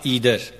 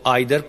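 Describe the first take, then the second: First: The first vowel sounds like 'ee'. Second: The first vowel sounds like 'eye'. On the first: "या ईदर, दोनों तरह दुरुस्त माना जाता है" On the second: "आइदर पढ़ें"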